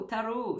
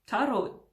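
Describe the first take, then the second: First: "tarot" said the Italian way, rolled r, stress on the last syllable; a quick playful Italian "tarot"; Italian accent. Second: Said in the usual way. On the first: Shown as a demonstration. Vlogger presenting an Italian deck, playful Italian accent on "tarot". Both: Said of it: "je prends l'accent italien là".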